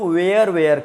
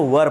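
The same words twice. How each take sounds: First: "were" said like "wear", with an "air" vowel; "were" rhyming with "air", as a common learner error; mispronounced "were". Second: "वर" said with a short neutral vowel, like "wur"; "वर" as the corrected "were", rhyming with "her"; correct "were" pronunciation. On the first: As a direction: say "were" wrongly as "wear", twice over. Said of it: "गलत है, इसको वर पढ़ते हैं". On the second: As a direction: say "वर" as one short syllable, no "air" sound. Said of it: "इसको वर पढ़ते हैं". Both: Shown as a demonstration.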